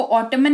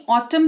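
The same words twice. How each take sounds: First: ऑटमन with the final N sounded; wrong pronunciation. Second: ऑटम with a silent N; correct pronunciation. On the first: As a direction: say ऑटमन, adding N after M. (गलत उच्चारण, ऑटमन में न बोलकर) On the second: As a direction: say ऑटम, ending on M. (सही उच्चारण, ऑटम में न मौन) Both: Shown as a demonstration. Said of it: "इसको ऑटमन नहीं ऑटम पढ़ेंगे".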